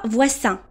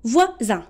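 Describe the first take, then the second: First: The middle consonant is a hissing s sound. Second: The middle consonant is a buzzing z sound. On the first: The speaker calls it wrong. "On ne dit pas voisin. Non, c'est incorrect" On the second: The speaker calls it right. "on dit voisin"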